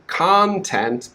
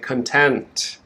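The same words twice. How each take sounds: First: The stress is on the first syllable. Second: The stress is on the second syllable. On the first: The speaker calls it right. "they want to say the second word" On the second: The speaker calls it wrong. "but they say content, and it's very confusing"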